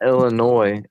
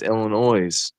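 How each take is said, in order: First: The final S sound is silent. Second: The final S sound is pronounced. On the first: The speaker calls it wrong. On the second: The speaker calls it right.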